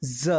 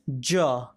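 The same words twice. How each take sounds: First: "ज" as "za", for repeating; nukta z sound. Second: "ज" repeated as "ja", tongue to palate; palatal j. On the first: Teacher asking learners to repeat, "ज" as za. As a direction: say "ज" with a continuous z buzz. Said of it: "आप भी बोलिए". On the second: Teacher repeating for learners, "ज" with a hard palatal j. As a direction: say "ज" low with a stopped j. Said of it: "ज का उच्चारण करते हैं". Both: Shown as a demonstration.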